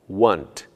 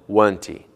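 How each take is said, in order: First: The word ends on its final consonant sound. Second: An extra 'ee' vowel follows the final consonant. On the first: The speaker calls it right. "e nem em palavras terminadas em consoantes" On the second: The speaker calls it wrong. "e não"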